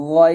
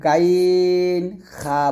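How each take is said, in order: First: "গইন" heavy and rounded from the throat, held very long; correct thick ghayn. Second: "গাইন খা" with thin open 'a' vowels in place of thick ones, drawn out; wrong thin ghayn, kha. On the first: Teacher giving the right form after the mistake, thick ghayn. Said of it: "এটা বলবেন". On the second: Teacher showing a common student mistake, wrong thin pronunciation. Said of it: "এরকম ভুল করবেন না". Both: Shown as a demonstration.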